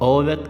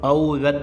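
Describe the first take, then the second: First: The first vowel is a single long vowel. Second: The first vowel is a glide like a-u. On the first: This is the standard Hindi form. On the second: This is the Awadhi form.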